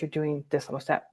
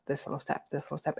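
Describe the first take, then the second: First: Said in the usual way. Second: Soft whisper, almost no voice. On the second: Real, not acted. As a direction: drop to a whisper on the repeat. Repeated phrase, whispered.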